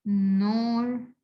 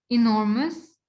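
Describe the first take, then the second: First: "enormous" as "e", "nor", "mous", pauses between; divided into syllables. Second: Said in the usual way. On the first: Shown as a demonstration. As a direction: slowly separate each beat of "enormous". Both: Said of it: "also three syllables".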